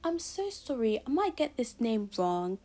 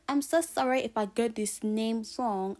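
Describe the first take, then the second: First: It is said in a British accent. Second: It is said in her normal accent.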